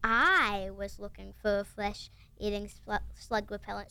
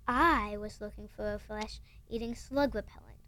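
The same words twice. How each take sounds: First: Slow, low growling Hagrid. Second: Whispered growl. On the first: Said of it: "[name]'s doing her Hagrid growling impression". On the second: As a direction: read it as a hushed growl. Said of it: "growled Hagrid". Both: Retold or imitated.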